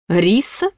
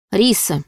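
First: «Риса?» asked with a rising, amazed tune; the demon echoes «Риса?» in disbelief; astonished question. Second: Said in the usual way. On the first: A narrator's reading. Demon repeats «Риса?» back to her with a rising, amazed tune. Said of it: "Изумление демона было неподдельным".

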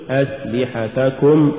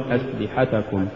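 First: Slow أسلحتكم, every short vowel complete; full vowels. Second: أسلحتكم lower, softer, vowels cut short; snatched vowels. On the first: Teacher models correct recitation, أسلحتكم slow and evenly voweled. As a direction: give each syllable of أسلحتكم equal room. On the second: Teacher shows crooked reading, أسلحتكم hurried and low. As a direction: hurry through the syllables of أسلحتكم. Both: Shown as a demonstration. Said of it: "ولا تقل".

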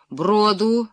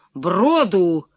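First: Called-out command. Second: Loud, resounding princely command; booming shout. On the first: Prince orders his men to find a ford, called out. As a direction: call out the order, pitch rising at the end. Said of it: "крикнул князь". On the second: Prince repeats his order to find a ford, booming shout. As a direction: boom out the order with a falling end. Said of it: "крикнул князь зычным голосом". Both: A narrator's reading.

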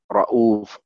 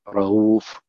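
First: "رؤوف" said smoothly as /rauf/, hamza eased after the fatha. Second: "رؤوف" said with a light break, /rehuf/; contrasting take. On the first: Teacher demonstrates "رؤوف" to students with the hamza eased. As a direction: run "رؤوف" together as rauf, no glottal stop. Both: Shown as a demonstration. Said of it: "بعد فتح".

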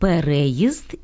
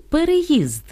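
First: «переїзд» stressed on the second syllable, перЕїзд. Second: «переїзд» stressed on the final syllable, переЇзд; stress on last syllable. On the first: («переїзд» — наголос на «ре») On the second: («переїзд» — наголос на «їзд») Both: Shown as a demonstration. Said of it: "різницю у значенні слів".

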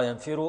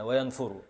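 First: ينفر said "yanfiru", i after the f; kasra on f. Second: وينفر said "wa-yanfuru", u after the f; damma on f. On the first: Teacher names the vowel, ينفر as yan-fi-ru. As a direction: put a short i after f in ينفر. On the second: Teacher names the vowel, وينفر as wa-yan-fu-ru. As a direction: put a short u after f in وينفر. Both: Shown as a demonstration. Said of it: "بكسر العين وبضمها".

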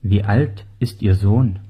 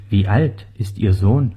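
Both takes have the same delivery.

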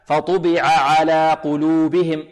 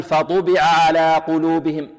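First: Slow recitation of فطبع على with both ayns distinct; measured chant, فطبع على clearly separated; full vowels, no snatching. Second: فطبع على with the first ayn's vowel clipped; slow chant with a swallowed vowel in فطبع; snatched vowel, wrong way. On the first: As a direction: give each ayn in فطبع على its whole vowel. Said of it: "لا بد من إيضاحهما". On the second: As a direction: demonstrate the fault, running the ayns of فطبع على together. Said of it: "اختلاس، لا". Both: Shown as a demonstration.

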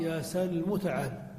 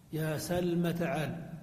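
First: سلم ending on a u vowel: salmu; meem with damma. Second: سلم ending on an a vowel: salma; meem with fatha. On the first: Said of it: "وعلى الأخرى". (نطق سلم بضم الميم: يا سلمُ) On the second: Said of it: "فنقول على اللغة الأكثر". (نطق سلم بفتح الميم: يا سلمَ) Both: Shown as a demonstration.

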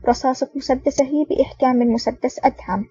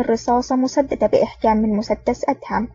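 First: "مسدسه" read in place of "مسددة"; misread word. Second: Said in the usual way. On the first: Real, not acted. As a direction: slip on "مسدسه", ending in -suh. Misread word, retaken next line.

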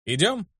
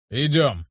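First: "Идём" higher, rising as a question; questioning rise. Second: "Идём" as a falling statement; confirming fall. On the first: Narrator asking Luke to go, questioning rise on "Идём". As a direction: ask "Идём" with the pitch climbing. Question answered by the other man. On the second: Luke agreeing to go, confirming fall on "Идём". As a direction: answer "Идём" with the pitch dropping. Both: A narrator's reading.

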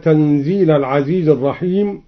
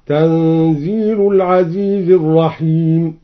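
First: Said in the usual way. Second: تنزيل ending in u, tanzilu; nominative tanzilu. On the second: Shown as a demonstration. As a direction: give تنزيل a final damma. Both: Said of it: "قرأ الدوري تنزيل بالرفع".

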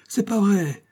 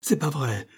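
First: The plea rising toward a cry; sobbing plea. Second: Higher, pleading first denial; pleading sob. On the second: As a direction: beg them to believe you. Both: Acted. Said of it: "Il suppliait et sanglotait".

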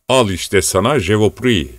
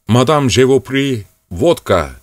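First: Said in the usual way. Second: Mock French. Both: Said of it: "deyip dururdu".

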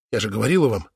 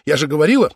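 First: Low, almost to herself; insisting. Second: Now cry it out, louder; louder insisting. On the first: (тихо, потрясённо) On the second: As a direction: burst out, louder and rising. (громко, срываясь) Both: A narrator's reading. Sister insists, repeats herself.

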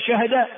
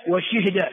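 First: شهد with sukun on the ha; shortened verb. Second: وشهد with kasra on shin, sukun on ha; moved vowel. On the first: Teacher showing a permitted variant, "shahda". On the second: Teacher showing the other permitted variant, "shihda". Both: Shown as a demonstration. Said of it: "ويجوز أن تقول".

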